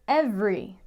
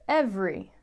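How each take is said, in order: Both takes have the same delivery.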